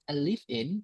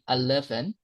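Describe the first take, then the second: First: The vowel in 'live' is long, like 'leave'. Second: The vowel is short and the words run together. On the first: The speaker calls it wrong. "a lot of people say" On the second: The speaker calls it right. "It should be"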